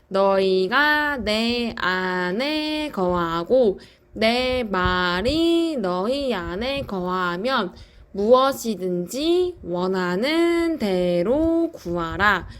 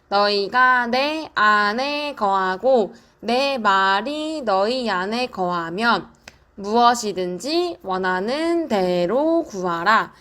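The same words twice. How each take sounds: First: It is said slowly. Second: It is said fast.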